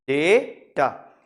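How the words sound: It is said with an American 'day' vowel.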